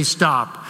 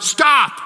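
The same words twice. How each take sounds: First: Low, steady authority, no shouting; calm command. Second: Sharp shouted stop, much higher and louder. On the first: Police officer halting traffic, calm authoritative command. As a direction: say it like an officer who expects obedience. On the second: Pastor imagines yelling at traffic, loud shout. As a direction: yell it at the oncoming traffic. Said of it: "and I were to shout". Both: Retold or imitated.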